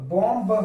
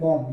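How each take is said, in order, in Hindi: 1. अंतिम 'b' ध्वनि का उच्चारण किया जाता है। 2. अंतिम 'b' ध्वनि का उच्चारण नहीं किया जाता है। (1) "यहां पर जैसे देखते हैं बॉम्ब" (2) "अगर हम इसे बोलते हैं तो क्या बोलते हैं बॉम्ब"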